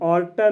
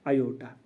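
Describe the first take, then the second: First: The word begins with an 'ar' sound. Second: The word begins with an 'ay-o' sound. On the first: The speaker calls it wrong. "इसको हम आर्टा नहीं पढ़ना" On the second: The speaker calls it right. "इसकी जो pronunciation है वो है आयोटा"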